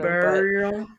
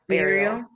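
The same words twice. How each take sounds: First: The first vowel sounds like ooh. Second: The first vowel sounds like bear. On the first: "some people say burial, like, with, like, a more, like, a ooh sort of" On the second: "Think of it, like, if it was spelled B-E-A-R"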